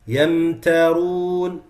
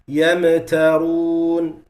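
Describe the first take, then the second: First: The meem is held smoothly with no bounce. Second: The meem gets an echoing bounce. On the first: The speaker calls it right. "instead of saying" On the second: The speaker calls it wrong. "they say"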